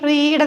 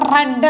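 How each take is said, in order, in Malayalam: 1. ഈ സ്വരം നീണ്ട 'ee' ശബ്ദമാണ്. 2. ഈ സ്വരം ചെറിയ 'e' ശബ്ദമാണ്. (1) "ഈ സൗണ്ട് വരുന്നുണ്ട്" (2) "എ സൗണ്ടാണ്"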